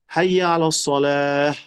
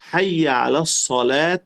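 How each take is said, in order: First: The final word ends with an h sound. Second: The final word ends with a t sound. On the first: The speaker pauses after the phrase. "si yo voy a hacer una pausa allá" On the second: The phrase continues without a pause. "Yo dije hayya ala salat y seguí"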